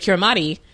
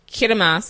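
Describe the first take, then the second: First: The word ends with a 'mati' sound. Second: The word ends with a 'mas' sound. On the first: This is how the spelling suggests it is said. "even though it looks like Kirimati" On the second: This is how the name is actually said. "Kirimas is Christmas"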